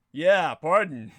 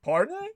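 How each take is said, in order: First: "pardon" said slow and much louder, landing flat; louder, slower wordplay on "pardon"; punning stress. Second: "Pardon?" jumping way up high in disbelief; a shocked high-pitched question; mock startled listener asking "Pardon?"; surprised pardon. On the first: Shown as a demonstration. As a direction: drag out "pardon" as the punchline. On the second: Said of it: "you might say".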